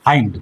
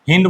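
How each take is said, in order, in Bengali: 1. স্বরধ্বনিটি লম্বা 'eye' এর মতো। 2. স্বরধ্বনিটি ছোট 'i' এর মতো। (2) "হিন্ড বলবি না কিন্তু"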